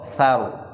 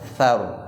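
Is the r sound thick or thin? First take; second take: thick; thick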